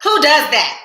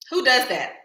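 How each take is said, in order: First: High, loud incredulous question; who does that, really. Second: Said in the usual way. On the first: Real, not acted. Laughing at herself.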